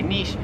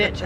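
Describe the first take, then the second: First: "niche" as "neesh"; French-style variant. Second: "niche" as "nitch"; short I and a tch in "niche"; American variant. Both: Shown as a demonstration. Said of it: "I've heard Americans say".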